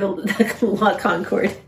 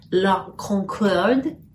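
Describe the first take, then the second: First: It is pronounced the American way. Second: It is pronounced the French way.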